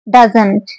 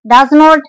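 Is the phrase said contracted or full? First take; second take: contracted; full. First: The words merge into one reduced syllable. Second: Both words are said fully and separately. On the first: "Doesn't comes for does not" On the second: "Doesn't comes for does not"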